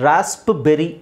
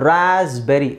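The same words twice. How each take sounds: First: ರಾಸ್ಪ್ಬೆರಿ with the P sounded out, raasp-beri; mispronunciation demo. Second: ರಾಸ್ಬೆರಿ with no P, raaz-beri; silent P demo. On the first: Teacher shows what we don't say, ರಾಸ್ಪ್ಬೆರಿ with P pronounced. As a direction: pop an audible P before the B in ರಾಸ್ಪ್ಬೆರಿ. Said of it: "ಅಂತ ಹೇಳಲ್ಲ". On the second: Teacher shows learners the P is silent, ರಾಸ್ಬೆರಿ without any P. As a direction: say ರಾಸ್ಬೆರಿ going straight from S to B. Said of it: "ಪಿ silent ಆಗುತ್ತೆ". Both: Shown as a demonstration.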